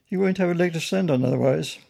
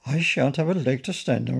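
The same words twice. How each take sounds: First: Higher-pitched, emphatic warning; firm caution, lifted in pitch; official warning. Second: Mildly alarmed echo; a touch of worried disbelief. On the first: Acted. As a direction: warn with firm authority. Policeman warning the bear. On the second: A narrator's reading. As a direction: repeat it with understated alarm. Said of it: "repeated Pennington in alarm".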